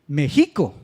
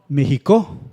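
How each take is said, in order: First: The stress is on the middle syllable. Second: The stress is on the last syllable. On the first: "La penúltima" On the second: "si pronunciáramos la última sílaba, que es co, fuerte"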